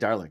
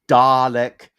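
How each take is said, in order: First: The word is said with an R sound. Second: The word is said with no R sound. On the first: This is a personal habit mixing two accents. "I put the R in to make it sound British and American" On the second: This is the expected way to say it. "I know it's supposed to be Dalek"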